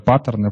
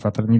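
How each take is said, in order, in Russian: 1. Ударение как в английском. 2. Ударение как в русском. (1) "По-английски как это паттерны" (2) "по-русски паттерны"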